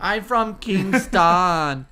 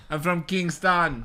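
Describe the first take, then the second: First: Very slow put-on Jamaican drawl; mock Jamaican accent. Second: Put-on slow, weak Jamaican accent; mock Jamaican accent. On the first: [name] echoes the Jamaican line. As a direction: drag each word in a Jamaican accent. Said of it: "Say this". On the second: Friend admits his Jamaican accent is not great. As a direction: draw out Kingston in a bad Jamaican lilt. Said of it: "That's my Jamaican accent".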